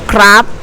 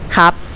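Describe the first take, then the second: First: An R sound follows the first consonant. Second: No R sound follows the first consonant. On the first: "because of we add R sound in the middle" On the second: "we lazy to say the R sound, so we say cup"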